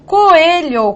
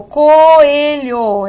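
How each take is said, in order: First: Said in the usual way. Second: "coelho" stretched out as co-e-lho; syllables separated. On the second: Shown as a demonstration. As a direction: slowly pull apart the vowels of "coelho". ("coelho" devagar, separando as sílabas)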